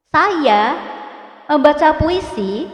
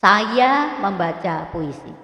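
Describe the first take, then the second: First: Higher and louder, rising on membaca and puisi; question intonation. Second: Slow with a falling end on puisi; statement intonation. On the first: Teacher demonstrating question intonation, rising at end. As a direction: ask it, lifting the end. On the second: Teacher demonstrating news intonation, slow and falling. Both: Shown as a demonstration. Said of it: "Baca dengan intonasi yang benar".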